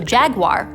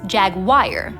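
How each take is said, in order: First: The word ends like 'war'. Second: The word ends like 'wire'. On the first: "which naturally has the R" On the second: "gets hypercorrected to ire"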